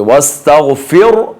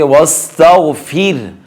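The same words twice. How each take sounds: First: वस्तगफिर ending in thick, rounded "fur"; wrong heavy raa. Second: वस्तगफिर slowly, clear "fir" with thin r; light raa. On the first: Teacher showing the error, wrong heavy raa. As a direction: darken the final r of वस्तगफिर by mistake. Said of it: "नहीं पढ़ेंगे". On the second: Teacher modelling the correct reading, light raa. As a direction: linger on ghayn, thin the r of वस्तगफिर. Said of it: "रा को बारीक पढ़ेंगे". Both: Shown as a demonstration.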